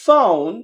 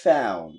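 First: Loud British "found" with AH-oo and dropped D; British accent. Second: American "found" with AE-oo and dropped D; American accent. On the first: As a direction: say "found" as FAH-oon. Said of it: "ব্রিটিশরা বলতেছে". (British উচ্চারণে) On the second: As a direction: say "found" as falling FAE-oon. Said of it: "ওরা বলছে". (American উচ্চারণে) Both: Shown as a demonstration.

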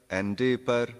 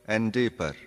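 Both takes have the same delivery.

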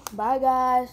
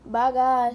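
First: Cheerful goodbye. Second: Bright, loud sign-off; cheerful goodbye. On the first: Cheerful sign-off. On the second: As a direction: wave goodbye to viewers. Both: Real, not acted.

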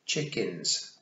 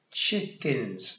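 First: Severe, no-nonsense big sister; severe correction. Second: Put-on dutiful little-boy echo; obedient. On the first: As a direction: correct a small child firmly. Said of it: "said Tiffany severely". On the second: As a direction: echo the correction like an obedient child. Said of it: "said Wentworth obediently". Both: A narrator's reading.

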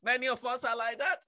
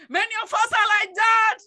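First: Low, soft aside; subdued, low-key admission; quiet remark. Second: Loud, high repeat to the congregation; preacher's raised, forceful declaration; emphatic shout. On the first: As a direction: say it softly, dropping the voice. Same words said quietly, then shouted. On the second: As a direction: raise the voice and drive it home. Same words repeated as a shout. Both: Real, not acted.

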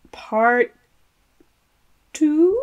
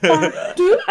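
First: "Two" after a long pause, raised like a question; hesitate, then lift "Two" uncertainly; tentative rising "Two?"; unsure, Scottish-sounding TWO. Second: Playful Scottish "two", pitched up and louder; high, rising mock-Scottish "two"; mock Scottish accent. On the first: Real, not acted. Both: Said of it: "trying to do a Scottish accent as two".

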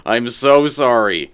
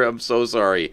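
First: Slow, louder stretched apology; slow exaggerated apology; drawn-out sorry. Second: Said in the usual way. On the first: Real, not acted. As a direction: stretch out every word of sorry.

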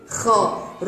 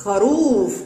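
First: "خروف" split as kha, pause, long rūūf; strong damma. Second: "خروف" as one word, kharūūf; blended word. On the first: Teacher sounds out for listeners, syllables drawn out. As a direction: hold the ū of خروف. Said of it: "وينطق ضمة شديدة". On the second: Teacher blends the word after sounding out, whole. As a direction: join kha and rūf smoothly. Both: Shown as a demonstration.

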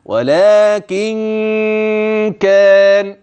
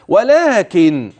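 First: ولكن كان chanted slowly, final ن of ولكن held as a nasal hum into كان; ghunna when linking. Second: ولكن chanted slowly and closed on a plain final ن; stopped ending. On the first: Teacher showing the ghunna between ولكن and كان, long nasal link. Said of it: "خلي بالك من الغنة اللي جاية". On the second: Teacher mistakenly stopping on ولكن instead of linking it. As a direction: stop dead at the end of ولكن, no linking hum. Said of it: "بس أنا وقفت". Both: Shown as a demonstration.

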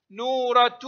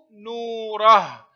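First: نورة as "nuuratu", t plus u; sounded ta. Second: نوره drawn out as "nuurah", ending on h; pausal ha. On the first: Teacher showing pupils connected reading, نورة ending "-tu". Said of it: "تنطق تاء في الحركة". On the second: Teacher showing pupils the stop, slow نوره ending in h. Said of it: "وهاء عند الوقف". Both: Shown as a demonstration.

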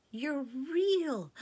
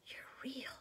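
First: High, loud, joyful; joyful cry. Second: High, breathless whisper; awed whisper. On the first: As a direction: burst out with joy. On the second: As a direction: breathe it in wonder. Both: Acted. Girls discover Aslan alive.

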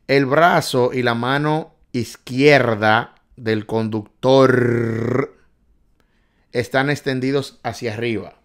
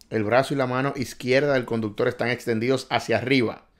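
First: Slow, louder, word by word; slow emphatic reading. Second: Said in the usual way. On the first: Shown as a demonstration. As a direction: read the question out slowly and clearly. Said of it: "repeats question at normal pace". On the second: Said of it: "slow take just before".

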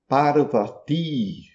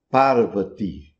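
First: "Parvati" slow, with a long final I; Sanskrit long I. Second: "Parvati" with a short, weak final I; Hindi short I. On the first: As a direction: hold the last I of "Parvati". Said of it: "a pronúncia correta em sânscrito". ("Parvati" com I final longo) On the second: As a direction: clip the "ti" of "Parvati". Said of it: "ti, no final. Um I curto". ("Parvati" com I final curto e fraco) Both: Shown as a demonstration.

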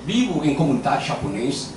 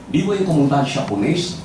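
No difference in how they are said.

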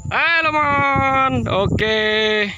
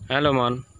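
First: Very high, loud, drawn-out slow call; long calling hello. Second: Said in the usual way. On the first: Real, not acted. Owner calling his pigeon back from the sky, long high call. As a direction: call the bird home across the field.

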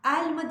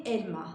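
First: "Elma" with an open E, like "ælma"; the common mistake, "ælma"; wrong pronunciation. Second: "elma" with a closed E; the right way, closed-E "elma"; correct pronunciation. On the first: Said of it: "açık veya kapalı E". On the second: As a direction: keep the E of "elma" closed and tight. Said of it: "kapalı E ile söylüyoruz". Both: Shown as a demonstration.

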